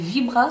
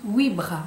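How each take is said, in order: First: The name starts with a V sound. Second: The name starts with a W-like sound. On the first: This is how it would be said in France. "En France, vous, vous diriez vibra sans doute" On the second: This is how it is said in Belgium. "en Belgique, on dit huit bras"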